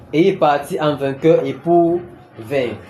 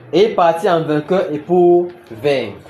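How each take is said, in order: No difference in how they are said.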